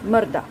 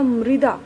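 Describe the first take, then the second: First: The first syllable sounds like 'mar'. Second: The first syllable sounds like 'mri'. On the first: The speaker calls it wrong. "बहुत से लोग इसको मर्दा बोल देते हैं" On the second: The speaker calls it right. "इसका उच्चारण होगा मृदा"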